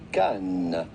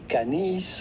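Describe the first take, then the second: First: The final S sound is silent. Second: The final S sound is pronounced. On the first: The speaker calls it right. "but rather simply" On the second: The speaker calls it wrong. "the S at the end of Cannes is definitely silent. So do not say"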